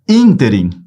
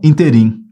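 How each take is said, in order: First: The stress is on the first syllable. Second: The stress is on the last syllable. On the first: The speaker calls it right. "Essa palavra, ela é proparoxítona" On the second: The speaker calls it wrong. "ela não é oxítona"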